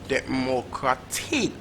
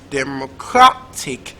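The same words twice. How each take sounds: First: The stress is on the fourth syllable. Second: The stress is on the third syllable. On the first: "Or is it last syllable" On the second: "Is it third syllable"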